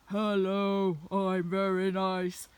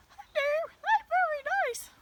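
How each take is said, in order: First: Low, slow, loud pretend dog voice; dogs' imagined tone. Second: Very high, loud cartoon dog voice; dogs' imagined tone. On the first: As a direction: play a big talking dog, pitched down and drawn out. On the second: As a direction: pretend to be a talking dog, squeaky high. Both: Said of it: "that's kind of more their tone".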